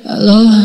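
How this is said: It is said softly, like someone just waking up.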